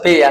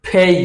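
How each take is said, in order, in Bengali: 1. প্রথম ব্যঞ্জনধ্বনিটি অল্পপ্রাণ। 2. প্রথম ব্যঞ্জনধ্বনিটি জোরালো মহাপ্রাণ। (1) "আমরা বলছি পে" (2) "আসলে হবে ফেই"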